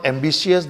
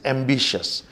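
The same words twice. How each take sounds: First: Ambitious with an i sounded, 'am-bi-shi-us'; wrong pronunciation. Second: Ambitious in three beats, 'am-BI-shus'; correct pronunciation. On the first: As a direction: stretch ambitious into four beats, 'shee-us'. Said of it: "this is not ambitious". (ambitious का गलत उच्चारण, 'एम्बिशियस') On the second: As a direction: slowly end ambitious on 'shus', no i. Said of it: "this is ambitious". (ambitious का सही उच्चारण, 'एम्बिशस') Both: Shown as a demonstration.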